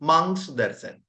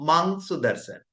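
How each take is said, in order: First: The first word is shortened to one syllable, mang. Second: The first word is shortened to one syllable, mang.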